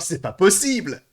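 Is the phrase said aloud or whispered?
aloud. It is spoken aloud in a full voice. The person said it openly for everyone to hear. "Il a dit"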